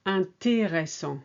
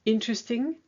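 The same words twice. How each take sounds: First: Intéressant with all four syllables; French pronunciation. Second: Interesting in English, higher; English Interesting for contrast; English word. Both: Shown as a demonstration.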